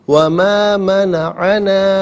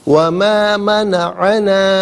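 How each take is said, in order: No difference in how they are said.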